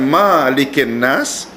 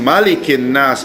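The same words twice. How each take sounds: First: The first vowel of malikin is long. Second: The first vowel of malikin is short. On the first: The speaker calls it wrong. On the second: The speaker calls it right. "sebagaimana Malikin Nas, kan pendek"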